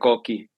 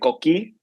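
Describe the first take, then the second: First: The stress is on the first syllable. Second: The stress is on the last syllable. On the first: This is how the speaker has always heard it. "but I I pronounce it" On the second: This is how people in Puerto Rico say it. "there's an accent at the end"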